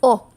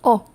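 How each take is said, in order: No difference in how they are said.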